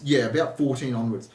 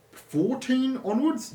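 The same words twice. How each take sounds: First: Said in the usual way. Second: FOURTEEN ONWARDS high and slow, rising like a question; tentative high rise on "onwards"; unsure, questioning. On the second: Real, not acted. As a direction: stretch out "fourteen onwards" as if checking your memory. Checking own memory, questioning.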